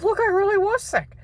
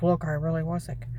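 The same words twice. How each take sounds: First: Much higher desperate plea; pleading. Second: Said in the usual way. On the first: Retold or imitated. Speaker begging the agent, high and pleading. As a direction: plead for belief. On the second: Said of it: "You liar".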